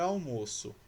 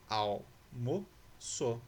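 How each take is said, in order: First: Said in the usual way. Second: "Almoço" very slowly as al, mo, ço; long pauses between the syllables of "Almoço"; split into syllables. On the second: Shown as a demonstration. Teacher showing L separated from M, "Almoço" syllable by syllable. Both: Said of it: "L separado do M".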